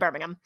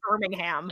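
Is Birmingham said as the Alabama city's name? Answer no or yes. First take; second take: no; yes. First: Said in an American way, not like Alabama's city. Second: Said the way Alabama's city name is pronounced. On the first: It refers to the English city. "which I say like that because I'm American" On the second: It refers to the city in Alabama. "That's the one in Alabama"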